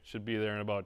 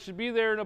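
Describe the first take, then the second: First: The voice sounds flat and unenthusiastic. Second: The voice sounds cheerful and friendly. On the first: The caller seems uninterested in the customer. The speaker calls it wrong. "it can't be" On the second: The caller seems glad to be coming. The speaker calls it right. "we want to be happy on this phone call"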